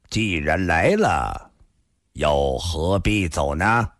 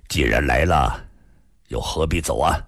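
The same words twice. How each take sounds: First: Unhurried, drawn-out question; slow, deliberate. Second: Lower-pitched, lightly voiced middle-aged man; faintly amused. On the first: Shangguan Jinhong asking the man to stay, slowly. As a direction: stretch each phrase out slowly. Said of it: "上官金虹缓缓地说道". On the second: Middle-aged man echoing Shangguan's question, low and faintly amused. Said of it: "突然淡淡一笑". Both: A narrator's reading.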